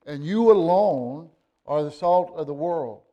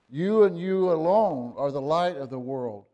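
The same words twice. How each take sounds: First: YOU and you alone punched hard and louder; preacher's emphatic YOU, ringing out. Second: You and you alone stressed and louder; insistent preacher's stress on You; emphatic you. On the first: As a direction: lean hard on the word you. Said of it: "it's very emphatic". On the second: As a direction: hit You and you alone hard again. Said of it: "the term that we call emphatic". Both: Shown as a demonstration.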